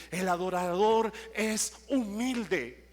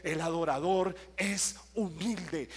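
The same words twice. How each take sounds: First: "el adorador es humilde" slow and louder, "adorador" punched; emphatic repeat. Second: "el adorador es humilde" said slowly with weight on "adorador"; slow teaching tone on "el adorador es humilde", stressing "adorador"; slow emphasis. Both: Shown as a demonstration. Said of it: "le quiero decir algo".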